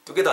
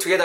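First: "together" with a hard unaspirated t, like "dugeder"; wrong-way demo of "together", no puff on the t; mispronounced together. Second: "together" with a clear puff of air on the t; crisp aspirated t opening "together"; correct together. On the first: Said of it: "together 아닙니다". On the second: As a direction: model "together" as "tuh-GE-ther", airy t. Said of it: "together입니다". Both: Shown as a demonstration.

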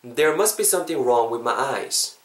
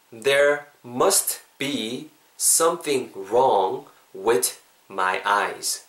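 First: Said in the usual way. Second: Very slow, each word set apart. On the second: Shown as a demonstration. Teacher modelling today's sentence for learners, slowly word by word. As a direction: pause between words as a pronunciation model.

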